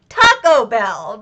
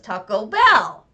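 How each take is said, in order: First: The word Taco carries the stress. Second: The word Bell carries the stress. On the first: The speaker calls it right. "there are lots of bells, but this one is taco. So it should be" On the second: The speaker calls it wrong. "but he does"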